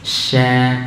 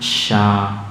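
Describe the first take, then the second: First: The sh sound is thin and light. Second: The sh sound is thick and heavy. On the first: The speaker calls it right. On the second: The speaker calls it wrong. "Kadang kita baca dengan tebal"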